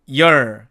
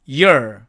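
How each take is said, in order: First: The vowel after y is a weak uh sound. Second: The same.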